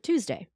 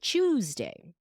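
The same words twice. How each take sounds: First: It begins with a plain t sound. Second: It begins with a ch sound. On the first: "So I pronounce it Tuesday" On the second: "more like chewing Tuesday"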